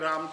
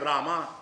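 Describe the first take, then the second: First: The name ends on the final consonant. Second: The name ends with an added final vowel. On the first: The speaker calls it right. "वो राम है" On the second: The speaker calls it wrong. "South वाले बोले बोलते हैं रामा"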